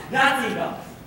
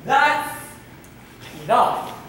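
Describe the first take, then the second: First: THAT'S ENOUGH in one run, pitched up then falling; THAT'S ENOUGH without a break, higher at the start; firm limit. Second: THAT'S held up high, ENOUGH set apart after a pause; emphatic limit. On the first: Quoted thought, fed up with bags. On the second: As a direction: break THAT'S ENOUGH into two forceful pieces. Repeats the thought more emphatically. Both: Acted.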